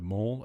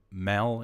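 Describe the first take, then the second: First: "mall" with an aw vowel, as in "ball"; standard pronunciation. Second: "mal" with a short a as in "pal"; Victorian pronunciation. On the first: Streamer giving the usual word for contrast, "mall" with aw. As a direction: say "mall" with the rounded aw. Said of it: "mal instead of mall". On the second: Streamer showing how Victorians say the word, "mal" with short a. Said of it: "if you're from Victoria, you tend to say". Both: Shown as a demonstration.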